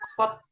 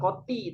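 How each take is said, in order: First: The word ends in a bare t sound. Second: The word ends in a ti sound. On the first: "bukan kot" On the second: "bukan koti"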